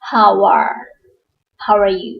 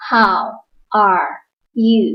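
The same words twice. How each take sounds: First: "how are" run together as howa-are; linked sounds. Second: Each word said apart, slowly; slow separate words. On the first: Teacher showing students how words link when spoken fast. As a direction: blend "how are you" smoothly into one flow. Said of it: "กลายเป็น". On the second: Teacher reading words slowly one at a time to beginners. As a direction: space out How, are, you one by one. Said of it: "เมื่อเราพูดเร็วๆ เราจะเชื่อมเสียง". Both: Shown as a demonstration.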